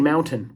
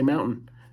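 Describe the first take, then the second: First: The middle T sound is clearly pronounced. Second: The middle T sound is dropped. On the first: "We don't say mountain" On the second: "we don't say our T's in mountain"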